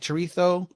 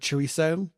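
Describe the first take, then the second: First: It is said with a European Spanish pronunciation. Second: It is said with a non-European pronunciation.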